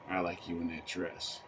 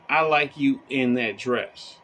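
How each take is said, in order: First: The tone sounds insincere and unenthusiastic. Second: The tone sounds sincere and straightforward. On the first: The speaker really doesn't like the dress. "but the tone I used was" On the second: The speaker really likes the dress. "If I'm telling you that I like you in that dress"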